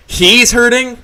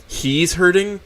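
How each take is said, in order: First: Much louder and higher, outraged; incredulous outburst at the boss; outraged repeat. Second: Disbelieving echo, held in; stunned disbelief. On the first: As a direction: explode on the repeat. Disbelief turning to rage. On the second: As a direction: say it as if you can't believe it. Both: Acted.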